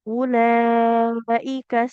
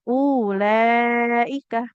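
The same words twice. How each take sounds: First: The first vowel is kept short. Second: The first vowel is drawn out long. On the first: The speaker calls it right. "hamzahnya jangan dipanjangkan" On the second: The speaker calls it wrong. "tidak boleh kita baca panjang"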